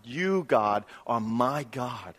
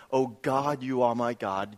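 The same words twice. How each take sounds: First: Slow down and lean on "my" in "are my God"; "my" drawn out as the key word; stress on MY. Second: Said in the usual way. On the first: Shown as a demonstration. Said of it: "The emphasis is actually the word "my". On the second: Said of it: "Why else would he say it like this".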